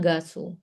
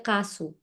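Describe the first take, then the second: First: The word begins with a voiced G sound. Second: The word begins with a voiceless K sound. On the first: It follows the written rule. The speaker calls it wrong. "Nggak ada yang sebutnya gasu" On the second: It is how people actually say it. The speaker calls it right. "kalau orang Korea ngomongin cepet, mereka itu baca kasu"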